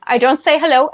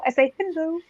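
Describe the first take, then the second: First: Said in the usual way. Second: High, soft lolcat-speak greeting; small pitched-up animal-speak hello; internet animal voice. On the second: Shown as a demonstration. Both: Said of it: "I talk like an internet animal".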